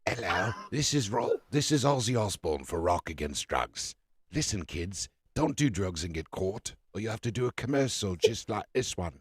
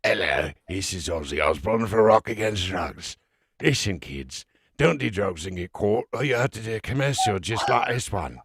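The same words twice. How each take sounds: First: Slurred British rocker voice; loose, mumbled British celebrity PSA. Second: Put-on drunk, slurred British rocker, thicker and mushier. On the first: Acted. Podcast host jokes with a public service announcement, mock slurred British rocker. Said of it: "it's like [name] doing a public service announcement". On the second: Host takes one more shot at the commercial, drunk British rocker voice. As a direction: slur the anti-drug PSA like a sozzled British rocker. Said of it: "had to put myself in drunk mode to do the Aussie commercial".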